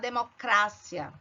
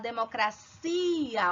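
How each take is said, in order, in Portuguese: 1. A tônica não cai em ci. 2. A tônica cai na sílaba ci. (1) "Em espanhol você vai falar" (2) "Olha a força no i, no i, na última sílaba, cia"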